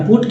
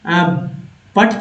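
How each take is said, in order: First: The vowel is the short 'oo' sound as in 'foot'. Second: The vowel is the open 'uh' sound as in 'but'. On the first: The speaker calls it right. "पुट क्यों होता है" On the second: The speaker calls it wrong. "तो P यू T पट क्यों नहीं होता"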